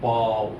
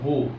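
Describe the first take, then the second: First: The vowel sounds like the one in 'cow'. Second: The vowel sounds like the one in 'go'. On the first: It is an exclamation at something amazing. "বয় আকা ও বাও" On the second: It means bending forward in front of someone. "বয়কা বো"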